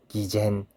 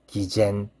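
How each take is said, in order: The two takes are said the same way.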